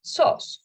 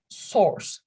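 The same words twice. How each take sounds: First: "sauce" for source, British style without R; non-rhotic, R dropped. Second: "source" with the R sounded, American style; rhotic R. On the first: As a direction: say "sauce" as a vowel straight into S, no R. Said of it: "Non-rhotic accent, for example, British accent". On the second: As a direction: pronounce a clear R before the final S in "source". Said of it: "Rhotic accent, for example, American accent". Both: Shown as a demonstration.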